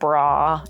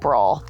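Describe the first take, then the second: First: The word ends in an open vowel. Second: The word ends with an L sound. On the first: "forces me to say bra" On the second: "It's my accent"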